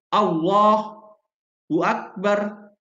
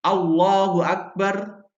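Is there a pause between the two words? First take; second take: yes; no. First: A pause separates the two words. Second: The two words run straight together. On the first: The speaker calls it wrong. "tidak boleh berhenti" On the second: The speaker calls it right. "langsung gitu ya"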